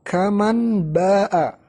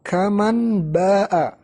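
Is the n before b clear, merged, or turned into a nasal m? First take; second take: clear; clear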